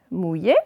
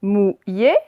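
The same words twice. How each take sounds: First: Said in the usual way. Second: "mouillé" split into mou, illé; syllable by syllable. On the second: Shown as a demonstration. Teacher reading words aloud to pupils, syllable by syllable. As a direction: sound out "mouillé" in two separate beats. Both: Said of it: "on va faire les deux d'un coup".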